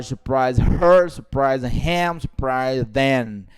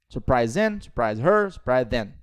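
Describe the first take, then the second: First: Slow, drawn-out final word in "surprise them"; too slow, separated. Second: Brisk linked list, falling on "surprise them"; quick native linking. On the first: Teacher warning students how not to say it, slow and separated. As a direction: pull "surprise" apart from "her", "him", "them", slowly. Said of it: "Você não pode falar". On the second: Teacher drilling native speed for students, quick and linked. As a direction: say "surprise him", "surprise her", "surprise them" each as one quick unit. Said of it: "os nativos falam assim". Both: Shown as a demonstration.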